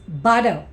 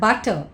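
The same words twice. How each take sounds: First: The middle consonant sounds like a soft D. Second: The middle consonant sounds like a clear T. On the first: "T takes the sound of D" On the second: "It's not butter"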